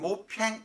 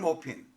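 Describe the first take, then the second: First: The name ends in a nasal 'paeng' sound. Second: The name ends in a clear 'pin' sound. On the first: This is the French-style pronunciation. "프랑스어로 표현하는 데는 모팽" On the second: This is the English-style pronunciation. "영문으로 된 데는 모핀"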